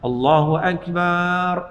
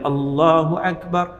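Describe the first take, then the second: First: The final vowel in akbar is drawn out long. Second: No vowel is drawn out beyond normal length. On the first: It says God is a drum. The speaker calls it wrong. "akbar tak dipanjang ... tak boleh" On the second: It says God is the greatest. The speaker calls it right. "jadi kena sebut bagi betul"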